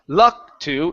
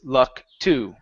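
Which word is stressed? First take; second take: luck; to. First: The stress falls on luck, with to low. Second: The stress falls on to, which goes up. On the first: The speaker calls it wrong. "instead of luck to" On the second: The speaker calls it right. "it's luck to. So it's up just a little bit"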